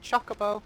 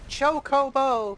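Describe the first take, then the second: First: The word is said with anglicized English pronunciation. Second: The word is said with Japanese-style pronunciation. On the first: The speaker calls it wrong. "Not Chocobo" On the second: The speaker calls it right. "I use kind of like a Japanese pronunciation of the words"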